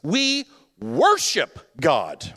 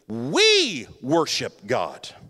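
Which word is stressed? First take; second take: worship; we. First: The stress falls on the word worship. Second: The stress falls on the word we. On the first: God is to be treated as God, nothing less. "listen to the emphasis" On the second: Worship is done together in unity. "And now listen to this"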